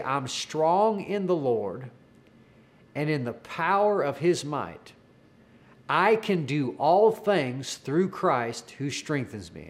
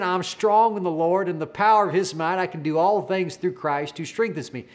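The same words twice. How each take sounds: First: Slow, measured declaration with long pauses; retold slow prompt. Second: Mildly raised, flowing declaration without breaks; retold bold declaration. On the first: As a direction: lead someone phrase by phrase, leaving room to repeat. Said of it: "take breaks in between words if you need to". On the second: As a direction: run it through confidently, a touch louder. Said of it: "making that declaration so loud".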